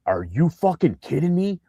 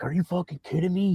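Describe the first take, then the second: First: High, amazed outburst; shocked and thrilled; excited disbelief. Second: High, amazed outburst; excited disbelief. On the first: Retold excited player outburst. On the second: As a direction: repeat it even higher. Same quote repeated higher. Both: Retold or imitated.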